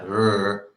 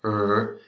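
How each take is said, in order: First: The r is a soft English-style r. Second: The r is a soft English-style r.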